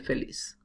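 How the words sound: It has a Latin American accent, z like s.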